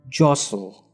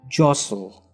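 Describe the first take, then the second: No difference in how they are said.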